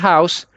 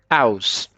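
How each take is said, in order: First: The word begins with an audible h sound. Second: The h sound at the start is dropped.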